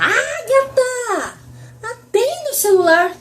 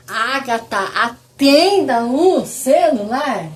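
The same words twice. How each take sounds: First: Very high, stretched-out holler; mock yell. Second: Slow, heavily spaced-out order; mock aggressive. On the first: Mother calling her daughter to answer the phone, high drawn-out yell. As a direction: yell it slowly across the house, pitched way up. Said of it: "Aí eu começo a berrar". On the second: Mother ordering her daughter to answer the phone, slow mock-aggressive command. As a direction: drag out every word as a pointed command. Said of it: "Ela vai falar que eu tô agressiva".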